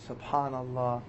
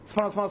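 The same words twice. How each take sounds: First: It is said slowly and audibly. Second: It is said fast and mechanically.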